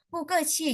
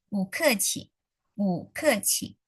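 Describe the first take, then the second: First: "bu ke qi" with bu said falling, not rising; "bu ke qi" every syllable dropped the same way; wrong tones. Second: "bu ke qi" with a rising bu, then falling ke qi; slow "bu ke qi", bu lifted up; tone sandhi. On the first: Teacher warning students it sounds angry, falling tones. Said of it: "Jadi ngomongnya bukan". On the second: Teacher modelling the right tones for students, slowly. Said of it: "Jadi nadanya naik yang depannya". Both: Shown as a demonstration.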